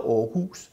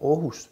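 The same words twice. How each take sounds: First: It has the Copenhagen-style pitch, stød and vowel length. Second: It has the Jutland-style pitch, stød and vowel length. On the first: This is how outsiders think the name is said. The speaker calls it wrong. "som tror, det hedder Aarhus, fordi damen siger" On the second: This is how locals say the name. The speaker calls it right. "det ved alle os, som er fra Jylland ... Det hedder Aarhus"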